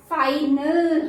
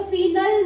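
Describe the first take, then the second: First: फाइनल slowly, with a long eye; correct long I. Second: फिनल with short i as in fin; wrong short I. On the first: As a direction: stretch फाइनल as fine-ul. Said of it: "फाइनल होगा". (फाइनल में लंबा 'आई', धीरे से) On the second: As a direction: misread final as fin-ul, फिनल. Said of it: "फिनल नहीं होगा". (फिनल, छोटी 'इ' से गलत) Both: Shown as a demonstration.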